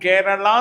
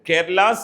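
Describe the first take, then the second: First: The L is a curled-back retroflex sound. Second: The L is a plain dental sound. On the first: The speaker calls it wrong. "കേരള എന്ന് പറയരുത്" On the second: The speaker calls it right. "കേരള സെ ഹൂം എന്ന് പറയണം"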